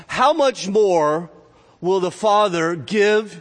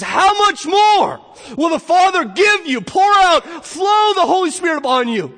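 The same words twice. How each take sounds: First: Slow, weighty build on "How much more"; measured, raised emphasis on the promise; emphatic verse reading. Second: High, full-force, drawn-out proclamation; soaring, slow, thunderous exclamation; exultant preaching shout. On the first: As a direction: raise and stretch "How much more", pausing before "will the Father give". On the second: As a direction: shout the promise at the top of your range. Preacher exclaims over the verse. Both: Real, not acted.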